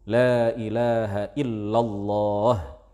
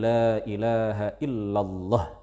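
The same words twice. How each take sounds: First: The vowel in the final lah is held long. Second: The vowel in the final lah is cut short. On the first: The speaker calls it right. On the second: The speaker calls it wrong.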